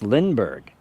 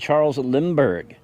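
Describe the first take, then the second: First: The name begins with an N sound, 'Lin'. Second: The name begins with an M sound, 'Lim'. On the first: The speaker calls it right. "It's Lindbergh, I know" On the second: The speaker calls it wrong. "I call him Charles Lindbergh"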